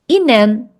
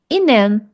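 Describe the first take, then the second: No difference in how they are said.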